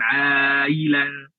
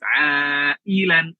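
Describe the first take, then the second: First: The glottal stop in the word is weak. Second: The glottal stop in the word is clear. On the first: The speaker calls it wrong. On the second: The speaker calls it right. "hamzahnya harus jelas"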